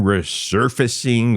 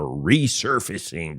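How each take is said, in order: First: "resurfacing" with a short, unstressed first syllable; "resurfacing" run together as one ordinary word; alternative pronunciation. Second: "resurfacing" with a long, stressed REE at the front; stressed prefix. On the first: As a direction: say "resurfacing" as ruh-SUR-facing. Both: Shown as a demonstration. Two readings offered with "or.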